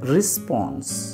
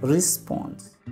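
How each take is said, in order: Both takes have the same delivery.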